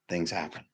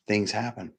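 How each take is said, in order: First: "Things happen" repeated much softer; softer echo. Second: Said in the usual way. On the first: Shown as a demonstration. Speaker echoing the point to himself, much softer. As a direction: let the second "Things happen" fall away quietly.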